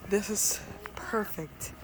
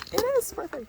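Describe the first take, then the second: First: Said in the usual way. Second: Excited. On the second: Real, not acted. Repeats with rising excitement.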